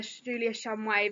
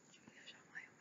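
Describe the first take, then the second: First: Said in the usual way. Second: Breathy whisper of the name. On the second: Shown as a demonstration. Fan whispering her favourite character's name, whisper. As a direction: whisper it dreamily to yourself.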